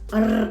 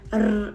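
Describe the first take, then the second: The two takes are said the same way.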